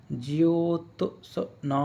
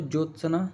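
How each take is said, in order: First: ज्योत्सना drawn out very slowly, syllable by syllable; ज्योत्सना stretched out like a teacher spelling aloud; slow syllable drill. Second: Said in the usual way. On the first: Shown as a demonstration. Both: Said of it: "यानी इस तरह से लिखते हो".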